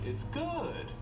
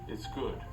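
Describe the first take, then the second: First: The pitch goes up and then down. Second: The pitch stays fairly level throughout. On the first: "Our voice goes up and down" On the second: "which is tone one"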